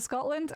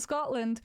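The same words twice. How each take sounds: First: It has a strong Scottish accent. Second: It has only a mild accent.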